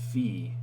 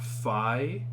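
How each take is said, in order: First: The vowel sounds like 'ee'. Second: The vowel sounds like 'eye'. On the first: The speaker calls it right. "We have fee" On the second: The speaker calls it wrong. "not fi"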